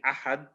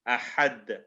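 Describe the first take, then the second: First: The final consonant stops flat without an echo. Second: The final consonant is released with an echoing bounce. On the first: The speaker calls it wrong. "instead of saying ahad" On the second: The speaker calls it right. "we have to put a lot more emphasis on it"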